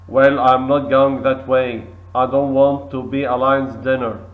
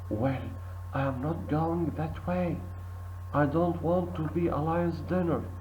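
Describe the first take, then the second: First: It is spoken in a loud voice. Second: It is spoken in a quiet voice. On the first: "In a loud voice" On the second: "In a quiet voice"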